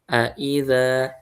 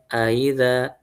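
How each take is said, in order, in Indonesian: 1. Hamzah kedua dibaca penuh dan jelas. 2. Hamzah kedua dilunakkan, hampir seperti meluncur. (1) "Dibaca jelas" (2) "maka dia harus ditasilkan aidza"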